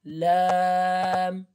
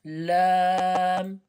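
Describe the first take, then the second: First: The vowel is held long and drawn out. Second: The same.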